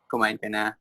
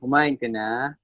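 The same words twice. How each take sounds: First: It is said short, flat and cold. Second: The vowels are stretched out, warm and lively.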